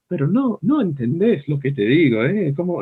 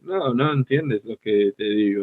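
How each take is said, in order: First: High, lilting, energetic Spanish; lively, emphatic Spanish delivery; animated Spanish. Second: Level, monotone Spanish; easy, understated Spanish delivery; flat, low-energy Spanish. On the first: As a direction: act it out in Spanish with big swings in pitch. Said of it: "it's hard to act like". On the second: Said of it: "it's much easier". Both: Shown as a demonstration.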